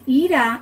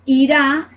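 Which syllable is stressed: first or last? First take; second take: first; last. First: The stress is on the first syllable. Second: The stress is on the last syllable. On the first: It means anger. "ira is related to anger" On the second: It means someone will go. "ira is the future tense for the verb to go"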